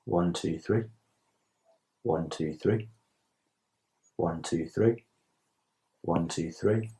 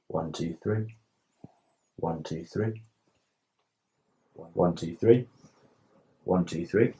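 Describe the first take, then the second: No difference in how they are said.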